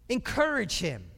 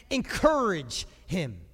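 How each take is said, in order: First: Said in the usual way. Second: Slow emphasis. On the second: Shown as a demonstration.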